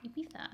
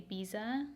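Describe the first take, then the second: First: Ibiza lisped, "ee-BEE-tha", softly. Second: Ibiza said with a plain z sound, "ee-BEE-za". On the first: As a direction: pronounce the z in Ibiza as a soft th. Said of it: "that's how you're supposed to say it". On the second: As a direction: pronounce Ibiza with a buzzing z, no lisp. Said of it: "I used to always say". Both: Shown as a demonstration.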